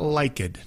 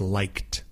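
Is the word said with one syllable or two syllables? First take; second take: two syllables; one syllable. First: The word is said with two syllables. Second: The word is said with one syllable. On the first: The speaker calls it wrong. "It's not liked" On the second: The speaker calls it right. "It's liked, liked, L-I-K-E-D, but just one syllable"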